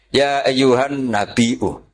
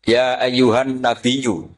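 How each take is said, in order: First: The word is said with a glottal stop hamzah. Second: The word is said with a y, no glottal stop. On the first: "ini mahmusul" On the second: "Imam Asim mengkhafif hamzah menjadi ya"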